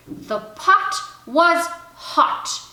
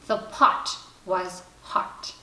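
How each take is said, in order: First: Slow, careful, louder reading; reading aloud. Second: Slow, breathy careful reading; reading a primer. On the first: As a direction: read each word out clearly and slowly. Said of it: "pretended she was reading to him". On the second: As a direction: sound out each word slowly. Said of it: "began to read". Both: Acted.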